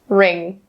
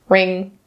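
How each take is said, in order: First: The word begins directly with an R sound. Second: The word begins directly with an R sound.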